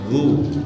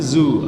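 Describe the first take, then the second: First: The consonant is made with the tongue tip out. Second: The consonant is a plain buzzing 'z' sound. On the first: The speaker calls it right. "Ujung lidahnya nempel di ujung gigi seri atas" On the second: The speaker calls it wrong. "bukan zu"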